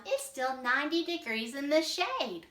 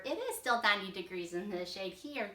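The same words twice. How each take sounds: First: Higher, louder, disbelieving; can't believe it's winter already; surprised alligator. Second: Said in the usual way. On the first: Acted. Alligator protests that Florida is still hot, higher and louder. Read as [name]'s line.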